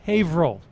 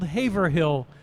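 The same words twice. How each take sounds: First: The name is said in a shortened, run-together way. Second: Every syllable of the name is said in full. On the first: "but pronounced Haverhill" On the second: "it's spelled Haverhill"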